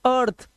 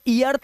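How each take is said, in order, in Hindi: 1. इस शब्द की शुरुआत सीधे 'er' स्वर की आवाज़ से होती है। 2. इस शब्द की शुरुआत 'ee' स्वर की आवाज़ से होती है। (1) "इसे बोलते अर्थ" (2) "ई अर्थ नहीं बोलते"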